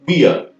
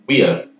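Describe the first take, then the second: No difference in how they are said.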